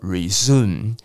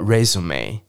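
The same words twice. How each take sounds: First: The stress falls on the second syllable. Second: The stress falls on the first syllable. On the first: It means to continue after a pause. "恢复叫做resume" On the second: It means a document listing work history. "履历表叫做resume"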